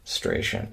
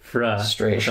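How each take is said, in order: First: The R after the F is left out. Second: The R after the F is clearly pronounced. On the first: The speaker calls it wrong. "he was saying it like it didn't have an R" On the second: The speaker calls it right. "I think we all know it's fra frustration"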